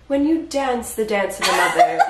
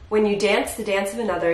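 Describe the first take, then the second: First: It is acted in the character's voice. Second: It is read in a plain voice.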